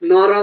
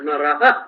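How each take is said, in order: First: The word ends plainly, without an echoed ha. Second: The word ends with an echoed ha sound. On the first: The speaker calls it wrong. "নর বললে হবে না" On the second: The speaker calls it right. "বিসর্গ থাকলে আহা এরকম উচ্চারণ হবে"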